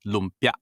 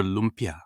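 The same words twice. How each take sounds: First: Lumpia said in two short syllables, LUM-pya, vowels clipped; correct Filipino pronunciation. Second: Lumpia said with the vowels stretched, LUM-pee-ah; wrong drawn-out pronunciation. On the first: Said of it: "You have to cut every vowel short". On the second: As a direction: mispronounce lumpia the American way, long vowels. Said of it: "It's never lumpia". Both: Shown as a demonstration.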